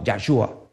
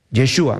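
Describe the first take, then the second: First: Low "Yahshua", opening on YAH; pronounced with YAH. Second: Low "Yeshua", opening on YE; pronounced with YE. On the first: Preacher voicing rival answers on the name, "Yahshua" with YAH. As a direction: counter with a low "Yahshua", A in the first syllable. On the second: Preacher voicing rival answers on the name, "Yeshua" with YE. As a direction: offer "Yeshua" low, E in the first syllable. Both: Retold or imitated. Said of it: "¿cuál es su nombre?".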